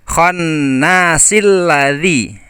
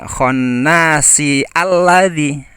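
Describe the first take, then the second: First: The words link with no 'a' before lladzi. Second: A separate 'a' sound starts alladzi. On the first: The speaker calls it right. "jadi ternyata jadi khonnasil ladzi ya" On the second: The speaker calls it wrong. "bukan khonnasi alladzi"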